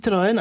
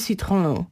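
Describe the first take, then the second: First: The name is said with Polish pronunciation. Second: The name is said with French pronunciation. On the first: "dla nas to jest Citroën" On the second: "a nie Citroën"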